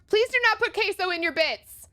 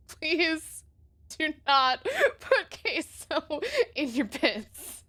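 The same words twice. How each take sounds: First: Said in the usual way. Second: Please do not put queso in your pits, slowly, leaning hard on not; slow stress on not. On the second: Shown as a demonstration. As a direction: drag it out and hit not.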